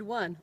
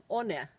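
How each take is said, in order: First: Said in the usual way. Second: "one" as oh-neh, spelled sounds; Finnish sounding-out. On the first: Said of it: "or even the word one". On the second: Shown as a demonstration. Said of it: "couldn't just be easily sounded out".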